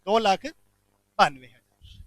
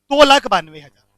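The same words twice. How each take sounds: First: "दो लाख बानवे हजार" spelled out slowly, word by word, like for notes; teacher slowly repeating the figure "दो लाख बानवे हजार" for the class to note; slow dictation. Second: Said in the usual way. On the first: Shown as a demonstration. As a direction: drag out "दो लाख बानवे हजार" so students can write it.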